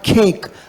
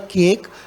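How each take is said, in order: First: It is said in a British English style. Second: It is said in an Indian English style. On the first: The speaker calls it right. "और केक" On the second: The speaker calls it wrong. "या केक जैसे हम कह रहे हैं"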